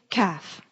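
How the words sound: It is said in an EastEnders Cockney accent.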